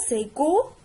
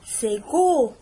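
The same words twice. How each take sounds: First: "go" with a hard g and a lifted end. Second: "go" said with a hard g. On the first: Teacher repeats the hard "go" for pupils. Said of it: "Donc G-O". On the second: Teacher shows pupils G with O. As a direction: say "go" with a hard g, stressed. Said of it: "G avec O". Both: Shown as a demonstration.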